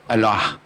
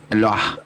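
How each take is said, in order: Both takes have the same delivery.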